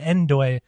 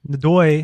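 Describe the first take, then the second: First: The name begins with an 'en' sound. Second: The name begins with a 'no' sound. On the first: This is how the team says it. "they pronounce it Endoy. They say Endoy" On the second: This is how the speaker thinks of it. "every time I just think Nodoy"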